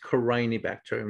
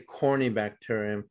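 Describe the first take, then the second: First: The first part sounds like "carinii". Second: The first part sounds like "corny". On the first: The speaker calls it right. "it's pronounced Carinii bacterium" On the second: The speaker calls it wrong. "not corny"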